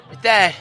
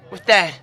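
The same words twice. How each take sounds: The two takes are said the same way.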